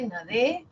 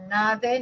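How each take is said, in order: First: "nade" stressed on DE, as na-DÉ, rising; stress on last syllable. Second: "nade" stressed on NA, rising; stress on first syllable. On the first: Teacher showing the shifted stress, "nade" as na-DÉ. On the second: Teacher showing students the stress, "nade" stressed on NA. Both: Shown as a demonstration. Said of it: "ahí está cambiando el acento".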